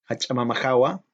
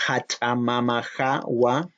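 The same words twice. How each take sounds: First: Hachamama jawa said again at normal pace; plain repeat. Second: Hachamama jawa said slowly with a rise on jawa; teacher modelling hachamama jawa slowly; slow model pronunciation. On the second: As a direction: sound out hachamama jawa carefully. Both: Shown as a demonstration.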